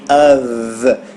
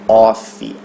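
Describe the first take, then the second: First: The word ends with a v sound. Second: The word ends with an f sound. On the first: The speaker calls it right. "o F a gente pronuncia com o som de V" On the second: The speaker calls it wrong. "e não off"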